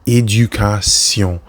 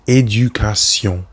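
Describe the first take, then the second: First: The ending is pronounced like French 'sion'. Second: The ending is pronounced like French 'sion'.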